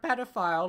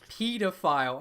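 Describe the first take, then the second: First: It is said with an American pronunciation. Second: It is said with an English pronunciation. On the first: "you say it like an American" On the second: "he wanted you to say it like a English person"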